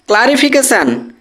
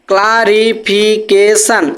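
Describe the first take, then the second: First: Said in the usual way. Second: clarification slowly split into ক্লা, রি, ফি, কে, শান; five syllables. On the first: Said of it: "চারের বেশি দল তৈরি হয়ে গেল". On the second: Shown as a demonstration. Teacher counting more than four syllables, clarification syllable by syllable. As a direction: give clarification five separate beats. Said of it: "পাঁচটা দল".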